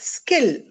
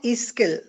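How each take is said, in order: First: It begins directly with the s sound. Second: It begins with a short vowel before s. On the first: The speaker calls it right. "It is uh, skill" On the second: The speaker calls it wrong. "not e-skill"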